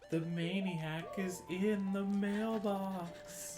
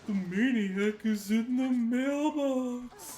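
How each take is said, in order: First: It is said in the speaker's normal voice. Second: It is said in a put-on cartoon character voice. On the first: The speaker calls it wrong. "I didn't do it in the right voice though" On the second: The speaker calls it right. "Patrick says it"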